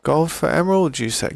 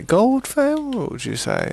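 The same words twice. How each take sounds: First: Raised, questioning trader voice; a light put-on bargaining tone; mock haggling query. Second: Much higher and slower on Gold for emerald, you say; exaggerated mock trader; hammed-up haggling. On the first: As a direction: play the shrewd merchant weighing the offer. Haggling with a game villager. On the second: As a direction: stretch it out like a pantomime merchant.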